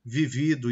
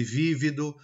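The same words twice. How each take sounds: First: "vivido" stressed on second VI; "vivido" with the beat in the middle; penultimate stress. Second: "vívido" stressed on first VÍ; "vívido" with the beat up front; antepenultimate stress. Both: Shown as a demonstration. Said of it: "Com a palavra acentuada ou não".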